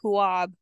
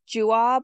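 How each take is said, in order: First: The name begins with an H sound. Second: The name begins with a J sound. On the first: "Like make the J and H" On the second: "Like make the J and H"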